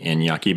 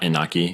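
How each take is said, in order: First: The middle consonant is an ny sound. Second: The middle consonant is a plain n sound. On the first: The speaker calls it right. "so Inye is from Spanish, so it'd be Inyaki" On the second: The speaker calls it wrong. "not Inaki"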